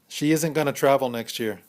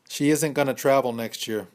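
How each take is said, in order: The two takes are said the same way.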